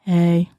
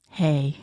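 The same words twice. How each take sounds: First: Said in the usual way. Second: Mock disabled voice. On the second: Shown as a demonstration. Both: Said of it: "I'm gonna show you how I act".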